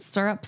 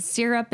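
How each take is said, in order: First: "syrup" with an r-colored first vowel, SUR-up. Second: "syrup" with a clear "sir" vowel, SEER-up. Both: Shown as a demonstration. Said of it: "What do you say?".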